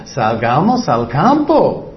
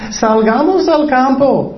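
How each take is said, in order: First: Said in the usual way. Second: Higher, sweet, luring tone; deceitful invitation. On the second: Shown as a demonstration. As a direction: coax him out as if nothing is wrong. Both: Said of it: "engañando".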